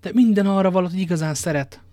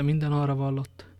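First: High, loud protest; passionate insistence. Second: Understated, unimpressed repetition; dismissive echo. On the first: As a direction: insist hotly, raising the voice. Lover insists she loves him. (hevesen, hangosan bizonygatva) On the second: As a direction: hand the words back without excitement. Athos echoes the lover's words back. (visszafogott, lekezelő visszhang) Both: Acted.

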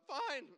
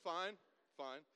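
First: Loud, very high panicked yelp; squeaky nervous voice. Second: Composed recovery. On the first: Nervous driver answering the trooper, squeaky. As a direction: voice shoots up out of control. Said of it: "Your voice gets, like, way squeakier". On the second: Driver correcting his squeaky answer to the trooper, steadier. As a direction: voice brought down from a squeak. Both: Retold or imitated.

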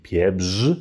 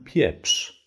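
First: "Pieprz" with a heavy buzzing rz ending; harsh version. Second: "Pieprz" ending in a light sh; soft sh ending. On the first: Teacher showing too heavy a Polish ending. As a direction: overdo the final rz in "Pieprz". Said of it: "wollen allerdings niemanden erschlagen". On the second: Teacher showing the gentler ending. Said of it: "Mit so einem S C H Laut". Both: Shown as a demonstration.

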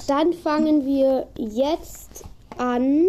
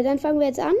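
First: Very slow, stretched out; slow drawn start. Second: Said in the usual way. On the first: Shown as a demonstration. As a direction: drag each word out. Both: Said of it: "Oh, äh".

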